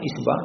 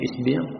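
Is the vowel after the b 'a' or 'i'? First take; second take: a; i. First: The vowel after the b is 'a'. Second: The vowel after the b is 'i'. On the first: "Ada beberapa bacaan tentang isba'" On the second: "bisa juga dibaca isbi'"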